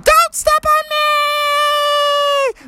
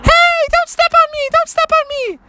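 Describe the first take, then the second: First: Very high and very slow stretched-out plea; tiny frog voice drawn out. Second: Very high squeaky pleading; tiny frog voice. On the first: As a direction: drag every word out in a tiny squeak. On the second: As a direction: squeak it like a frog the size of an ant. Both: Acted. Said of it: "so his voice was so high".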